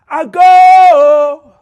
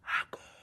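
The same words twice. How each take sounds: First: The word is shouted loudly. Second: The word is whispered softly. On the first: "if I shout it" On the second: "if I whisper"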